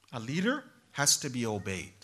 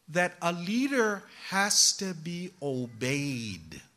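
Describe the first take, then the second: First: Said in the usual way. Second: Slow, weighty, stress on leader; slow emphatic statement. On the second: Shown as a demonstration. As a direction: lay it down slowly, leader hit hard.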